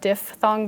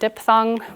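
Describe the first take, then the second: First: The first syllable has an F sound. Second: The first syllable has a P sound. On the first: The speaker calls it right. "it actually is pronounced diff with an F" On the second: The speaker calls it wrong. "A lot of people erroneously pronounce it diphthong"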